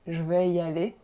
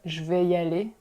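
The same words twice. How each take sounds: First: The vowel in je is dropped. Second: The vowel in je is fully pronounced.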